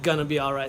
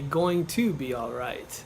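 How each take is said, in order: First: Going to is reduced to one word, gonna. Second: Going to is said in full, two words. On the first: The speaker calls it right. "sounds a little bit better" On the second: The speaker calls it wrong. "it doesn't sound as good"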